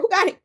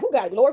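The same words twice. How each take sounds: First: Who got it? pushed up high; high pleading repeat. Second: Said in the usual way. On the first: Retold or imitated. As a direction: jump way up on the WHO. Repeats the question, pitched higher.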